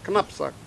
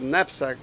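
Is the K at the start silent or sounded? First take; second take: sounded; silent. First: The word starts with a K before the N. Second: The word starts with a plain N sound. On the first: This is the original source-language form. "in the original pronunciation, it's knapsack" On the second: This is the borrowed everyday form. "they dropped the K. They call it knapsack"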